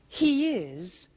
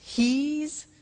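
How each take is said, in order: First: Both words are said in full. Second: The words are contracted into one syllable. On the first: "we contract the form" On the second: "he is becomes he's"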